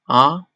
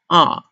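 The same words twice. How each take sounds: First: The pitch rises toward the end. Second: The pitch falls sharply downward. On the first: "It sounds like a question" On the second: "It's like a falling tone. It's, it falls"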